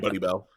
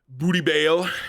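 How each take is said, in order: First: The name is said as 'Buddy Bell'. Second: The name is said as 'Booty Bale'.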